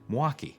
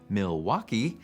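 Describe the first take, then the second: First: The L sound is dropped and squeezed. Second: The L sound is clearly pronounced. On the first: The speaker is a local. "drops the L sound and might even smush the name into two syllables" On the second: The speaker is not a local. "you might not fit in with the locals"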